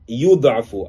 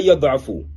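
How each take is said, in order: First: The word begins with a 'yu' sound. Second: The word begins with a 'ya' sound. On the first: The speaker calls it wrong. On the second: The speaker calls it right.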